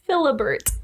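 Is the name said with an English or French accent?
English. The name is said with an English accent.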